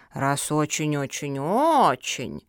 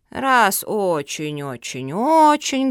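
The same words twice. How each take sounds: First: Slow, low start, swelling last word; drawn-out pondering. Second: Slow, loud, stretched repetition; emphatic drawl. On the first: Turtle weighing the pugs' plea, drawling. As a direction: drawl the repeats, stretching the last. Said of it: "протянула черепаха". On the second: Turtle deciding to help the pugs, emphatic drawl. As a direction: draw it out firmly, leaning on the last. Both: A narrator's reading.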